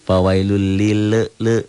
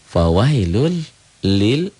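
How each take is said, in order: First: An extra "e" vowel follows the final L. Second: The final L stops cleanly without a vowel. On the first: The speaker calls it wrong. "jangan fawailul fawailul lil le ada e-nya, jangan" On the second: The speaker calls it right. "Nah itu ya. Tuh"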